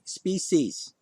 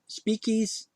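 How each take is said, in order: First: The middle consonant is a plain s sound. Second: The middle consonant is a k sound. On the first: The speaker calls it right. "there's no sh in that word" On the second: The speaker calls it wrong. "a c that sometimes sounds like a k"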